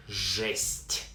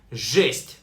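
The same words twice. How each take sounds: First: Жесть drawn out slowly and softly; slow pronunciation demo. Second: Said in the usual way. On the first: Shown as a demonstration. Teacher shows how жесть is pronounced, slow and distinct. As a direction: stretch the one syllable of жесть. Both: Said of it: "Pronounced like жесть".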